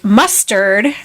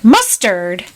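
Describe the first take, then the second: First: "Mustard" as a simple suggestion, slight lift; offering MUSTARD. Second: "Mustard" echoed with a sharp jump in pitch; questioning MUSTARD. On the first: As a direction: propose "Mustard" in an even, retold voice. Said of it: "The hare is like". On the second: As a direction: query "Mustard" as a mock-startled echo. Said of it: "the Mad Hatter's like". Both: Retold or imitated.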